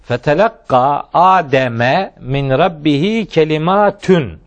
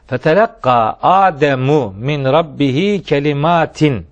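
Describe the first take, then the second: First: Adam ends in a, kalimat ends in -un. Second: Adam ends in u, kalimat ends in -in. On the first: Some words from his Lord reached Adam. "Adem mef'ul olur, kelimat fail olur" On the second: Adam received some words from his Lord. "Asım kıraatine göre böyle okunan"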